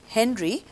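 The name is said with English pronunciation. The speaker calls it wrong. "in English, we will pronounce this as Henry"

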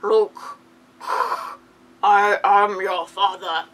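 It is said in a heavy, breathy voice.

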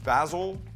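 Basil is said with an English accent.

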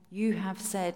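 It sounds confident, firmly claiming a promise.

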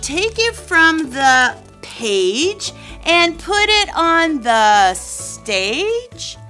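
It is said with a curious, wondering tone.

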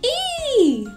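The sound is said in a silly voice.

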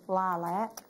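It is said with an American accent.

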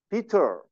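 The middle t is a clear, crisp t. "영국식 발음은 T 발음을 있는 그대로 다 해줍니다"

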